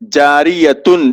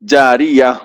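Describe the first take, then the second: First: The word ends with the syllable tun. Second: The word ends with a vowel a. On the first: "गोलता" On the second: "हाय साकिना बन जाती है"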